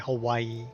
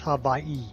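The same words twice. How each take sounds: First: The word is said the common American way. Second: The word is said the native island way. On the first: The speaker calls it wrong. "most Americans say Hawaii" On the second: The speaker calls it right. "that's not really how it's pronounced. It's Hawaii"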